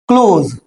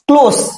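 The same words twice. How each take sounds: First: The word ends with a z sound. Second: The word ends with an s sound. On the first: To shut something. "यहां पे क्लोज का मतलब होता है किसी चीज को बंद कर देना" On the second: Near or intimate. "करीबी के लिए जो इसका उच्चारण है वो ये नहीं रहेगा"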